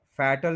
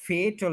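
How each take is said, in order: First: फैटल with short "a", as FAT-l; mispronounced fatal. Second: फेटल with long "ay", as FAY-tl; correct fatal. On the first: Teacher showing the mistake, फैटल as FAT-l. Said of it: "फैटल नहीं होता". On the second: Teacher giving the correct word, फेटल as FAY-tl. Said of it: "फेटल होता है". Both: Shown as a demonstration.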